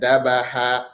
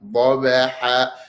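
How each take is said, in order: First: The first consonant is a light plain d. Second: The first consonant is heavy, filling the mouth. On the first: The speaker calls it wrong. "try not to make it dal" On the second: The speaker calls it right. "You have to raise the tongue in pronouncing it and fill the mouth"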